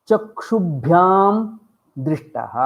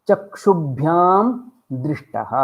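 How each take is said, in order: No difference in how they are said.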